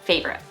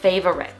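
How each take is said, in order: First: The word is said with two syllables. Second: The word is said with three syllables. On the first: The speaker calls it right. "in American English, we pronounce it as favorite, just two syllables" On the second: The speaker calls it wrong. "lots of my students say this word as favorite with three syllables"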